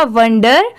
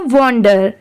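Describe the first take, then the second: First: वंडर with "uh" in the first syllable; short "uh" vowel. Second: वॉन्डर with a rounded "o" in the first syllable; "o" vowel. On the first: Teacher dropping the ING ending, वंडर with an "uh" sound. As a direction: say वंडर starting "vun". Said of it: "तो ये क्या हो जाएगा?". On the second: Teacher giving the other word without ING, वॉन्डर with an "o" sound. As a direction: say वॉन्डर starting "von". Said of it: "और वो क्या हो जाएगा?". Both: Shown as a demonstration.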